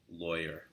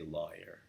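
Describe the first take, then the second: First: It is said in a Los Angeles accent. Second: It is said in a New York accent.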